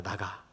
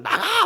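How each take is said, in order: First: Low, much softer muttered get-out; quiet grumble. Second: Put-on child's yell, much higher; loud shout. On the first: Retold or imitated. Father imitates daughter's usual muttered get-out, quiet. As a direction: mutter it like a sulky kid. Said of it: "흔히 하는 말". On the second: Father imitates daughter shouting at mom, loud and high. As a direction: yell it out like a cross kid. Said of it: "큰 소리로".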